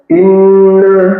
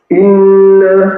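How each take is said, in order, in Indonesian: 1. Bunyi sengau dipotong sangat pendek. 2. Bunyi sengau dipotong sangat pendek.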